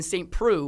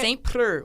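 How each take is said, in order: First: The name is pronounced with English sounds. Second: The name is pronounced with French sounds. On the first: "would be English" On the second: "would be French"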